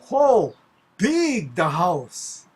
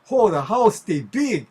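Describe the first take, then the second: First: "Ho" high and loud, "big" drawn out slowly; emphatic pidgin. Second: Hawaiian pidgin exclamation, loud high start. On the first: Local stressing how large the house was, "big" stretched emphatically. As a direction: put heavy weight on a long "big" in Hawaiian pidgin. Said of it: "wanted to really emphasize how large". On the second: Local just saying the house is large, Hawaiian pidgin. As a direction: call it out in everyday Hawaiian pidgin. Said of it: "not just say". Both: Shown as a demonstration.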